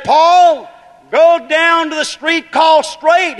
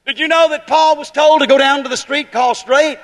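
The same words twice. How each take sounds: First: High, loud, slow voice of God calling; loud, drawn-out divine command; booming command. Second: Said in the usual way. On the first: Acted. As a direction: proclaim it like a voice from heaven. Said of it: "He said".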